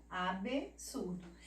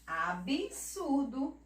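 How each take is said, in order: First: Absurdo as "a-bê-surdo", slow and softer; name the B inside absurdo as "bê"; "absurdo" divided after bê, dropping softer; consonant named. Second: Absurdo slow as "a-bi-surdo"; "Absurdo" spoken form with i after b. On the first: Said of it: "falando somente a consoante". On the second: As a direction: clear "bi" in Absurdo, voice lifted. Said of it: "como se ela tivesse um I". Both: Shown as a demonstration.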